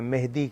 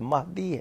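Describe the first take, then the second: First: The first vowel sounds like e in bed. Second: The first vowel sounds like a in but. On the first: The speaker calls it wrong. "आप उर्दू में मेहदी कहते हैं" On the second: The speaker calls it right. "असल लफ्ज़ महदी है"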